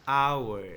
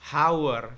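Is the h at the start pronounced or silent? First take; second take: silent; pronounced. First: The word begins with a vowel sound. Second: The word begins with an h sound. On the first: The speaker calls it right. "tapi dibaca hour... Bunyinya A, bukan H" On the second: The speaker calls it wrong. "bukan hour"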